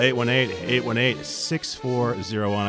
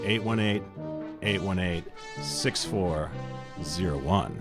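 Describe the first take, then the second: First: The number is said fast. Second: The number is said slowly.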